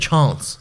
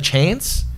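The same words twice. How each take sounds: First: It is said in an Adelaide accent. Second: It is said in a general Australian accent.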